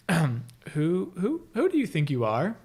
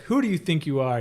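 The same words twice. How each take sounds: First: Stumbling over who, higher; stammering question. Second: Said in the usual way. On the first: Retold or imitated. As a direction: struggle to get the question out. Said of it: "Like, trying to ask it". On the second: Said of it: "instead of saying it, like".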